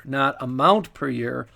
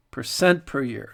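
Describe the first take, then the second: First: Amount stressed in contrast. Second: Percent stressed, falling. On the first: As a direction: hit "amount" in "not amount per year". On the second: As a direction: lean on "percent" in "Percent per year". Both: Shown as a demonstration. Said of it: "That's the key".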